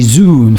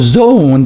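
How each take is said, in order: First: The vowel is a long oo sound. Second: The vowel is not an oo sound.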